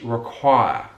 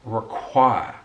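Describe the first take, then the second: No difference in how they are said.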